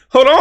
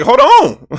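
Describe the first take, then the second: First: High, loud, rising hold on; half-laughing double take; stunned hold on again. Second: High, loud disbelieving hold on; stunned hold on. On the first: Vlogger repeating his shocked reaction, high and loud. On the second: Vlogger replaying a shocking pass, loud and high. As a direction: stop the tape in shock. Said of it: "I'm like". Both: Retold or imitated.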